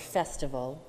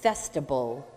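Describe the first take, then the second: First: The word is said with its standard pronunciation. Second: The word is said with a childlike mispronunciation. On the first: This is the intended word. The speaker calls it right. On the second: A small child said it this way. The speaker calls it wrong.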